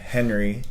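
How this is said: The name is said with English pronunciation. "If you want to call him Henry, that's fine"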